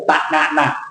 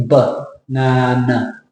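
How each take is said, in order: First: Banana with three full A vowels; wrong banana. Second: Banana slow with schwa first syllable, stress on na; weak first syllable of banana, slowly; right banana. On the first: Teacher shows the Thai way. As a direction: give every A in banana the same weight. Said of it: "you don't say banana". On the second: Teacher models the correct banana. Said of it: "We say banana". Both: Shown as a demonstration.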